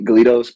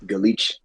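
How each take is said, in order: First: The word ends with a plain s sound. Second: The word ends with a ch-like sound.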